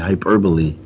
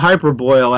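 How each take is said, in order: First: The word ends with a 'bolee' sound. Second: The word ends with a 'boil' sound. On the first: The speaker calls it right. "It should be hyperbole" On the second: The speaker calls it wrong. "if you think I'm mispronouncing a word, I did"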